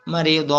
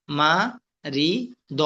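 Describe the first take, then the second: First: "মারিদ" read as one whole word; joined-up reading. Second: "মা, রি, দ" said as three isolated syllables; broken syllable by syllable. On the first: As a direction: read "মারিদ" without breaking the syllables. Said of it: "এরপরে reading পড়বেন". ("মারিদ" reading করে একসাথে পড়া) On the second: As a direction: leave a clear pause after "মা", "রি" and "দ". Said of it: "একটা একটা করে ভাঙ্গা উচ্চারণ". ("মা, রি, দ" ভাঙ্গা উচ্চারণে একটা একটা করে) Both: Shown as a demonstration.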